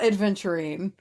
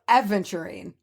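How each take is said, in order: First: A d sound comes before the v. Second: No d sound comes before the v. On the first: The speaker calls it wrong. "it's not adventurine" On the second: The speaker calls it right. "There's no D"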